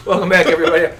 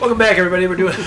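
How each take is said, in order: First: Said in the usual way. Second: Talking through a mouthful of chips; words round crunchy chips, mouth full. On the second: Real, not acted. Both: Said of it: "still got chips in my mouth".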